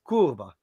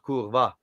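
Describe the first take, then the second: First: The stress is on the first syllable. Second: The stress is on the second syllable. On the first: The speaker calls it right. "the accent is usually on the first syllable" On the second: The speaker calls it wrong. "you guys tend to accent the second syllable"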